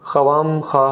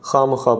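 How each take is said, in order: First: A w sound follows the first kh. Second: No w sound follows the first kh. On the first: The speaker calls it wrong. "नहीं पढ़ते" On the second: The speaker calls it right. "पढ़ते हैं"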